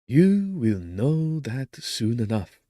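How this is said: The voice is smooth and clear.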